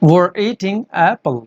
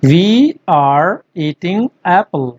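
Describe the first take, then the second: First: 'We are' is run together fast into one syllable. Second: Both words 'we are' are said fully.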